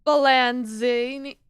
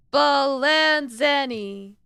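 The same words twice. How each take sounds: First: Slow "Spallanzini" with an -ZEE- in the third syllable; tentative misread of "Spallanzini"; stumbling mispronunciation. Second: Slow "Spallanzani", every syllable spaced, -ZAH-nee ending; deliberate corrected "Spallanzani"; careful correct pronunciation. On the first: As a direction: drag out "Spallanzini", getting the vowel wrong. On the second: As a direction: say "Spallanzani" syllable by syllable, finally right. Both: Shown as a demonstration.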